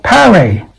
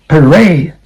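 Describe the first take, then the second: First: PARADE said as "PA-rade" with a full first vowel; mispronounced parade. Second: PARADE said as "puh-RAYD"; weak "uh" at the start of PARADE; reduced first vowel. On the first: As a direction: stress the first syllable of PARADE. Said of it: "last one is not parade". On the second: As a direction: stress the second syllable of PARADE. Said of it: "vowel sound". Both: Shown as a demonstration.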